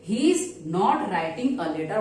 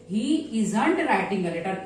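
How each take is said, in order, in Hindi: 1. 'Is not' को दो पूरे शब्दों के रूप में बोला जाता है। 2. 'Is not' को एक शब्द में संकुचित किया जाता है, isn't।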